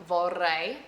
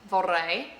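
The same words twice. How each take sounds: The two takes are said the same way.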